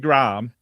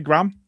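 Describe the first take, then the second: First: The name is said in a British accent. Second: The name is said in an American accent. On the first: This is how Americans do not say it. The speaker calls it right. "They don't say Graham" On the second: This is how Americans say it. The speaker calls it wrong. "They say Graham"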